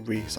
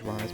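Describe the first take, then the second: First: The vowel sounds like 'ee'. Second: The vowel sounds like 'eye'. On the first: The speaker calls it wrong. "I keep wanting to pronounce it Reese" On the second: The speaker calls it right. "I know it's Rise"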